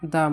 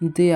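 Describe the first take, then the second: First: The vowel of 'the' sounds like 'uh'. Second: The vowel of 'the' sounds like 'ee'. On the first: "কনসোনেন্টের আগে দা বসলে সে দা উচ্চারিত হয়" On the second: "ভয়েলের আগে বসলে দি উচ্চারিত হয়"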